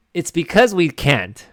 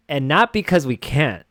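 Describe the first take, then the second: First: "because" pushed higher and louder, slowly; stress on because. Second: Said in the usual way. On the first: Shown as a demonstration. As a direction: lean on "because" with a slow, raised voice. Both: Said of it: "No, sorry".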